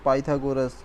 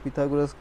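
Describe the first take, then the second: First: The first syllable has a long 'ai' vowel. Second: The first syllable has a short 'i' vowel. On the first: This is the form the textbook gives. "यहाँ पे pronunciation पाइथागोरस" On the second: This is the form people grew up saying. "हम लोग पिथागोरस कहते आए हैं छोटे से"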